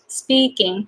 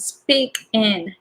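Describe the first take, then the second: First: The words are fully merged into one word. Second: The words stay slightly apart as two words. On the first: "you can link them and then you can say speaking" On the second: "to me, it's a little different"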